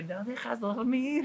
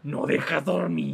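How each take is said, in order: First: Slow, drawn-out mock mom complaint, a touch higher; imitating mom. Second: Slow, drawn-out mock scolding mom; mom's fed-up nighttime complaint, slowly; imitating mom. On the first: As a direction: drawl it like a tired, annoyed mom. Mom scolding cough again.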